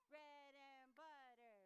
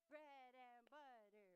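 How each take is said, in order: The two takes are said the same way.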